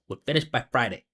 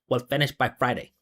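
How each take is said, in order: No difference in how they are said.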